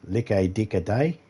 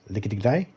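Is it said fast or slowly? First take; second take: slowly; fast. First: It is said slowly, word by word. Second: It is said quickly, run together.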